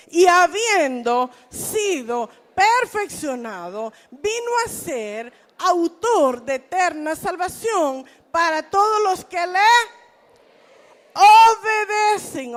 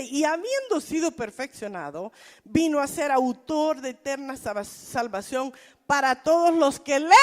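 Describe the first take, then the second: First: Slow, loud congregational reading; loud group reading of scripture; read aloud together. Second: Said in the usual way. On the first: Shown as a demonstration. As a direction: lead the whole church through it slowly and loudly. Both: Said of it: "tenemos que leerlo en voz alta".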